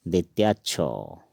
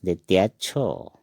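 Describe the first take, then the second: First: द्वितीय छो said clearly, o vowel; Assamese letter name. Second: द्वितीय छो repeated clearly for learners; Assamese letter name, repeated. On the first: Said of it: "छ को हम असमिया में पढ़ेंगे". (असमिया उच्चारण द्वितीय छो) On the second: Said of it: "क्या पढ़ेंगे?". (दोहराकर द्वितीय छो) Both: Shown as a demonstration.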